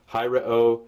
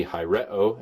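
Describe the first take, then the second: First: "hi re o" with the accent on HI; accent the first syllable of "hi re o"; stress on HI. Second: "hi re o" with the accent on RE; accent the second syllable of "hi re o"; stress on RE. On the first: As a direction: lead with a stressed "hi" in "hi re o". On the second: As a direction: stress the middle "re" in "hi re o". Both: Shown as a demonstration. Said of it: "anywhere it wants on the last three syllables".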